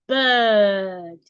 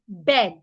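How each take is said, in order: First: The vowel is long with no r sounded. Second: The vowel is short, like in bed. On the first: "A British person will say bird" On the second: "a Nigerian will say bed. Bed is wrong"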